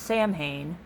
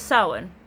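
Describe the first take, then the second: First: It is sounded out letter by letter as spelled. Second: It is sounded differently from its spelling. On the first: The speaker calls it wrong. "So I thought it was pronounced" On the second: The speaker calls it right. "originally it was"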